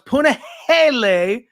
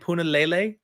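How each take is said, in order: First: The third syllable starts with an H sound. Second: The third syllable starts with an L sound. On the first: The speaker calls it right. "So it's Punahele" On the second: The speaker calls it wrong. "I always pronounce his name Punalele"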